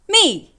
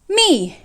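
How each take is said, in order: First: The syllable is said in the fourth tone. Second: The same.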